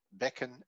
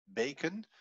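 First: Bekken with a short E in the first syllable. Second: Beken with a long, held E in the first syllable. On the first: Teacher contrasting Dutch vowel forms, short E in bekken. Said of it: "met een korte E". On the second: Teacher contrasting Dutch vowel forms, long E in beken. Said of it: "die je een hele lange". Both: Shown as a demonstration.

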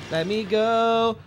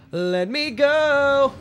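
First: Said in the usual way. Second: High, slow, whining plea; high whiny plea. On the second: Pretend. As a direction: beg to be let go, whining. Stuck in the ice, pleading.

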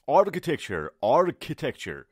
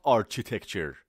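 First: Architecture slow and emphatic, "ar-ki-tecture"; correct K pronunciation. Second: Architecture said slowly with ch as in arch; mispronounced with CH. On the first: Teacher modelling the word for students, correct K pronunciation. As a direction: model architecture with a firm k sound. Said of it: "تلفظش که هستش". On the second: Teacher showing what not to say, mispronounced with CH. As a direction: say architecture wrongly, "ar-chi-tecture". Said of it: "not architecture". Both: Shown as a demonstration.

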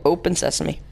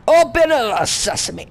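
First: Said in the usual way. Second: High, called-out incantation; mock magic command. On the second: Player commanding a game door to open, high mock incantation. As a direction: call it out grandly, high and raised.

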